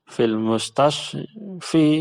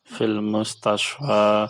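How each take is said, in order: First: The last word ends with an 'i' sound. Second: The last word ends with an 'a' sound. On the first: The speaker calls it wrong. "Tidak menjadi fil mustashfi" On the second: The speaker calls it right. "tetap pengucapannya sama"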